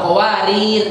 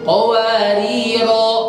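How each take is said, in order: First: The word ends without its final vowel. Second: The word ends with a vowel held two beats. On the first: The speaker calls it wrong. "nggak qawarir, nggak gitu" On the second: The speaker calls it right. "qawariro dua harokat"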